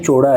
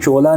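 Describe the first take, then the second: First: The middle consonant is a flapped r sound. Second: The middle consonant is an l sound. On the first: The speaker calls it right. "ड़ का उच्चारण सही करता हूँ" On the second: The speaker calls it wrong. "नहीं"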